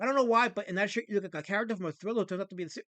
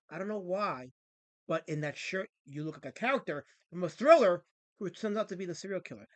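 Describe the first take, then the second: First: It is read fast. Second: It is read slowly.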